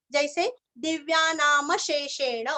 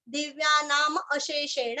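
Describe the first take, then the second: First: दिव्या नाम शेषेण with म carried into शेषेण; म जोड़कर; म joined on. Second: दिव्या नाम अशेषेण with a clear separate अ; अ अलग बोलें; अ kept separate. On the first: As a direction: join the म into शेषेण. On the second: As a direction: sound the अ of अशेषेण on its own. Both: Shown as a demonstration. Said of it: "ऐसे भी कर सकते हैं".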